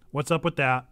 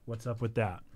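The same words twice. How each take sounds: First: Said in the usual way. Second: Quiet, lower repeat of the question; trailing low and soft; soft echo. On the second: Real, not acted. Softer echo of own question.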